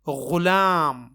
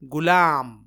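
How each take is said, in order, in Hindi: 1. यह एक गहरी, घर्षण वाली gh ध्वनि से शुरू होता है। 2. यह एक कड़ी, सादी g ध्वनि से शुरू होता है। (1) "गैन से गुलाम है" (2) "ग या गाफ से गुलाम ... जो कि गलत है"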